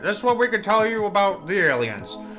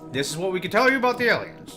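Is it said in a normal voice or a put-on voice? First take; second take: put-on; normal. First: It is said in a 1920s stockbroker voice. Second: It is said in his normal voice.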